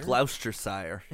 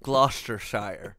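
First: "Gloucestershire" said as "GLOUSE-ter-sire"; "Gloucestershire" fumbled as "Glouse-ter-sire"; tried-out pronunciation. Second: "Gloucestershire" slowly as "GLOS-ter-shire"; "Gloucestershire" set right as "Gloss-ter-shire"; corrected pronunciation. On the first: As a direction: say "Gloucestershire" with an "ow" in the first syllable. Trying out the place name twice. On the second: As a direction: say "Gloucestershire" with a short "o", drawn out. Settles on the other pronunciation. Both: Real, not acted.

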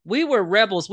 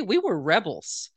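First: "We were rebels" said louder, leaning on "We"; emphatic repeat. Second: Said in the usual way. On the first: Shown as a demonstration. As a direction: punch it the second time, proudly.

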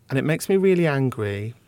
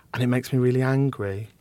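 The two takes are said the same way.

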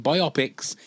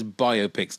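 First: "biopics" said as bi-OP-ics; slow, deliberate bi-OP-ics for "biopics"; mispronounced biopics. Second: Said in the usual way. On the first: Shown as a demonstration. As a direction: run "biopics" together like myopics, stress on the middle. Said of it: "It's biopics, not biopics". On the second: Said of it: "not biopics, it's biopics".

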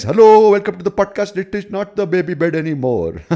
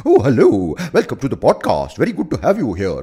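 First: High, loud, squealing host voice; silly podcast welcome voice. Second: Loud, swooping, hammed-up welcome; joke "normal" host voice. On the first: Shown as a demonstration. Host welcoming guests to the podcast, silly high greeting. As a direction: hold it high and loud all through. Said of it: "speak to them like this". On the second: Greeting a guest to the podcast, absurdly effusive host. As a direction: swing the pitch up and down theatrically. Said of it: "I will talk the way I talk normally".

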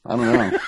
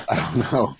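First: Said in the usual way. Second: Laughing, slow and drawn out. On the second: Real, not acted. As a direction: let the words dissolve into a laugh. Repeats it with laughter.

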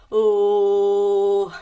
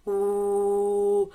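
First: Loud open warm-up "Oh" with a low pitch; loud vocal warm-up. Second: Gentle low "Oh", barely pushed; soft vocal warm-up. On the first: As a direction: let a big low "Oh" out from the chest. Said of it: "vas a hacer así". (un "Oh" fuerte y grave para calentar la voz) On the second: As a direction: ease out a relaxed low "Oh". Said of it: "vas a hacer". (un "Oh" suave y grave de calentamiento) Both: Shown as a demonstration.

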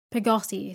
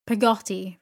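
First: Said in the usual way. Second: Loud, indignant repeat; some indignation. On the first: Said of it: "said my mother". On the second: A narrator's reading. Aunt repeating the servant's odd name, indignant and louder. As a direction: throw the name back, affronted. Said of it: "repeated Miss Betsy with some indignation".

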